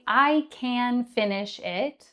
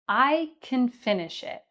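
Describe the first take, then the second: First: Can is stressed with a full vowel. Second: Can is unstressed with a reduced vowel. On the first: The speaker calls it wrong. "So we wouldn't say" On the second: The speaker calls it right. "We would say"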